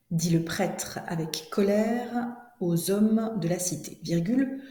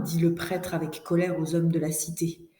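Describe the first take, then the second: First: Drawn-out, carefully separated phrase groups; slow dictation. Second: Said in the usual way. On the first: Shown as a demonstration. Teacher rereads for pupils writing, slow deliberate dictation. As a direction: stretch each phrase so writers can keep up. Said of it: "je commence la dictée". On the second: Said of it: "je vais vous lire la dictée".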